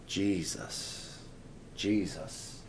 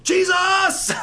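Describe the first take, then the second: First: Low, hushed, unhurried utterance of the name; soft, reverent murmur. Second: Loud, high, desperate scream; cry for help. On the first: Shown as a demonstration. Preacher showing what Mom did not say, softly reverent. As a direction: say it gently, as if in quiet prayer. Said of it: "the next thing I heard was not". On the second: Retold or imitated. Mother calling out as the car crashes, panicked scream. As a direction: shriek the name in sudden panic. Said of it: "It was a cry for help".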